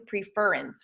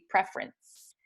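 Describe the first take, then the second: First: The stress is on the second syllable. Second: The stress is on the first syllable. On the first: The speaker calls it wrong. "we don't say preference" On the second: The speaker calls it right. "we say preference"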